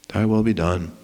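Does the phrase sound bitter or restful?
bitter. It sounds bitter and resigned. The speaker grudgingly gives in. The speaker calls it wrong. "with bitter resentment or defeated resignation"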